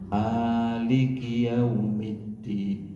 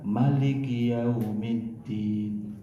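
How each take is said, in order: First: The first vowel of Maliki is held long. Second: The first vowel of Maliki is kept short. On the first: It names the owner of the Day of Judgment. "Mimnya dibaca panjang. Ada alifnya" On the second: It names the king of the Day of Judgment. "bisa juga dibaca pendek"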